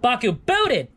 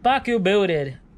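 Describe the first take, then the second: First: It is said excitedly, with energy. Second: It is said flatly, without excitement.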